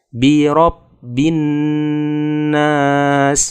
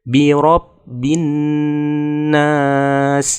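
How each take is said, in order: No difference in how they are said.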